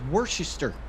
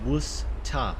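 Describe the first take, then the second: First: It is said the way it is spelled. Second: It is said like 'Woostah', with no R. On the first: "it does look like it says Worcester" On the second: "pronounce it Worcester. W O O S T A H"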